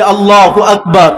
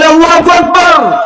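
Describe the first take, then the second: First: It is said at normal loudness. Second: It is said more loudly.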